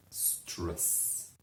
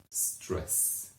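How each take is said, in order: First: Even quieter whisper; a fading, hushed repeat; softer whisper. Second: Breathy whisper of the word; a hushed, dramatic whisper. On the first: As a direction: let it fade to a breath. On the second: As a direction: whisper it for effect. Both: Shown as a demonstration.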